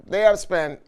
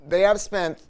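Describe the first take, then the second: No difference in how they are said.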